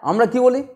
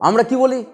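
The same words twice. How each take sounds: The two takes are said the same way.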